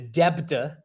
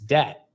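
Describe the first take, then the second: First: The b is pronounced strongly, adding a syllable. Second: The b is silent, one syllable. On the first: The speaker calls it wrong. "really stressed the B" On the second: The speaker calls it right. "It's debt. That's how you say it"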